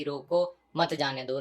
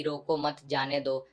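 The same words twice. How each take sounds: First: "रोको", a comma break, then "मत जाने दो" together; pause after रोको. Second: "रोको मत" run together, then "जाने दो"; रोको मत as one phrase. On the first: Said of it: "के बाद कोमा लगा दिया था". ("रोको" के बाद विराम, फिर "मत जाने दो" एक साथ) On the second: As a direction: keep "मत" attached to "रोको", releasing on "जाने दो". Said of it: "एक कोमा से ही बात का मतलब इतना चेंज हो गया". ("रोको मत" एक साथ, फिर "जाने दो") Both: Shown as a demonstration.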